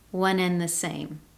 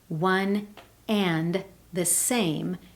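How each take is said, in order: First: The D in 'and' is dropped. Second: The D in 'and' is clearly pronounced. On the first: "Notice I've dropped that D sound" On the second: "clearly hearing"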